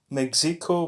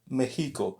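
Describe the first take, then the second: First: The x is pronounced as a ks sound. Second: The x is pronounced as an h sound. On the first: The speaker calls it wrong. "It's not Mexico" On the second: The speaker calls it right. "the letter X, is uh, is similar to kind of an H"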